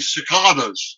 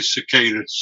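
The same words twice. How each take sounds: First: The word is said in a British way. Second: The word is said in an American way. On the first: "if you're British like David Attenborough, say cicadas" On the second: "But if you're American, you say cicadas"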